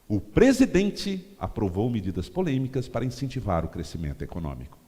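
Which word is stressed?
presidente. The word "presidente" is stressed. It appeals to supporters of the president. "Você dá ênfase no presidente"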